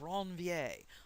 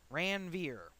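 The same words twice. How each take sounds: First: The name is said in a standard, non-Midwestern way. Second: The name is said with a Midwestern accent.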